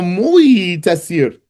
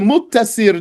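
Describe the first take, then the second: First: A y sound comes before the t. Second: A doubled t sound is used. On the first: The speaker calls it wrong. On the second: The speaker calls it right.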